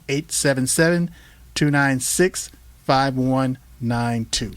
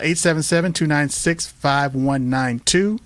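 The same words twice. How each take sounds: First: The number is said slowly. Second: The number is said at normal speed.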